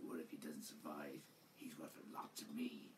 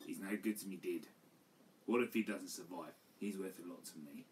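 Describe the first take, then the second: First: Low, soft, mumbled mock of the redubbed line; breathy, almost whispered low parody of a lazy line read; mock mumbled Boba. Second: Quoted line in a softer everyday voice; just read the line out flat before the parody; simple low-key quote of the movie line; plain quote of the line. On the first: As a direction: mutter it low and half-hearted, mocking a phoned-in delivery. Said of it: "He's like". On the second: Retold or imitated. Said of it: "doesn't even say the lines properly".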